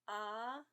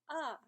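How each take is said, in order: First: It is said with the second tone. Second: It is said with the fourth tone. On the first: "second tone" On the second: "and fourth tone"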